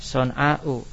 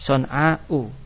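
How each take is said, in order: First: The word ends with a glottal stop and vowel. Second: The word ends with a glottal stop and vowel.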